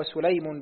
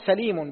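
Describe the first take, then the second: First: سليم as sulaym, short u then ay; damma on sin. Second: سليم as salīm, short a then long ī; fatha on sin. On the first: Student reading names to his teacher, سليم as sulaym. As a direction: round the first syllable of سليم with u. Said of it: "بالضم". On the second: Student reading names to his teacher, سليم as salīm. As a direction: open the first syllable of سليم with a. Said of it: "بفتح السين". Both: Shown as a demonstration.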